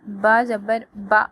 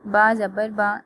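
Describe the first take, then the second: First: The syllable is cut off with a jerk. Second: The syllable is read gently and smoothly. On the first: The speaker calls it wrong. "झटका नहीं देना" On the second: The speaker calls it right. "नरमी से पढ़ना है"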